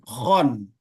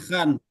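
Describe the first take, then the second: First: The vowel is a heavy, rounded 'o'. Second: The vowel is a light, open 'a'. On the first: The speaker calls it right. "tapi khon" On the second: The speaker calls it wrong. "Jangan khan"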